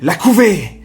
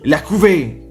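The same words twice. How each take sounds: First: The voice is projected and carries strongly. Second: The voice is held back and carries little. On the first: The speaker calls it right. "la voix, elle va plus porter" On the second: The speaker calls it wrong. "ça ne va pas"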